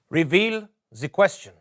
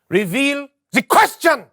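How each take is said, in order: First: It is said with little energy. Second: It is said with more energy.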